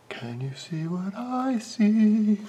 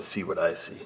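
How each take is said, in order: First: High, slow, drawn-out sung line; playful singing. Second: Said in the usual way. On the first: Pretend. Mechanic asks viewers about the view, playful high singing. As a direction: sing it out, holding long high notes. Breaks into song on same words.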